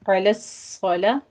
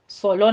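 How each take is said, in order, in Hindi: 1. L की आवाज़ हल्की और पतली है। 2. L की आवाज़ भारी और भरी हुई है। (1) "लाम को आपने बारीक रखना है" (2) "सोलो नहीं कहना"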